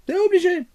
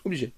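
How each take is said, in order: First: "C'est obligé" jumps much higher, "obligé" pushed hard; insist, leaping up on "obligé"; emphatic insistence. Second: Said in the usual way. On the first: Real, not acted. Vlogger insisting siblings must watch, pitched way up.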